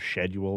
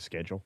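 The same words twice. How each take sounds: First: It is said the British way. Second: It is said the American way. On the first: "the U K version of" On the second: "instead of"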